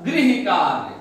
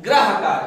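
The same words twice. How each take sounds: First: गृह said as "grih", with the ri vowel; गृह with a clear ri sound, not gra; correct Hindi pronunciation. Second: ग्रह said as "grah", the common mistake; wrong pronunciation. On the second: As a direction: mispronounce it as ग्रह with a flat "gra". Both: Shown as a demonstration. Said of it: "लोग क्या कहते हैं?".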